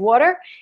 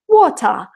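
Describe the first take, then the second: First: It is said in an American accent. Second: It is said in a British accent. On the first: "in American you would say" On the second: "in Britain they would say"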